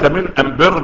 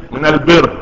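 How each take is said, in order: First: أم بر with am- instead of al-; Himyar dialect article. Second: Said in the usual way. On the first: Shown as a demonstration. Teacher translates Himyar speech, am- heard in أم بر. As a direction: say "am-birr" for al-birr in أم بر. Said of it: "نطق الألف لام ألف ميم". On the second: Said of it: "ليس من الإيه؟".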